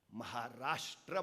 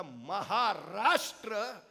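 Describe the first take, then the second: First: Maharashtra soft, low, drawn out, rising at the end; quiet slow Maharashtra; slow soft call. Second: Maharashtra louder and higher, drawn out very slowly; booming slow Maharashtra; swelling proclamation. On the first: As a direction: breathe Maharashtra gently as a question. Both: Shown as a demonstration.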